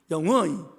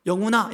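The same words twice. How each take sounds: First: "영훈" as a bare, cut-off Busan call; Busan dialect. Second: Said in the usual way. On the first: Shown as a demonstration. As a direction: call "영훈" Busan-style, stopping short without "아". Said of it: "부산에서는 그러면 되게 이상하대요". ("영훈", 부산 사투리로 딱 잘라 부르듯) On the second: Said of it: "이렇게 부르잖아요".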